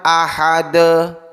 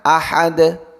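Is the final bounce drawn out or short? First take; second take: drawn out; short. First: The final consonant bounce is drawn out. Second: The final consonant bounce is short. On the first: The speaker calls it wrong. "bukan ahade" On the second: The speaker calls it right. "Harusnya ahad"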